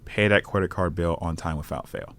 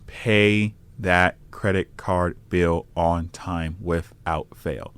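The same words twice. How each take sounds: First: It is said at a quicker pace. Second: It is said at a slower pace.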